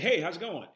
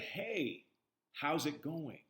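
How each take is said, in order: First: It is said quickly and rushed. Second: It is said slowly and easefully.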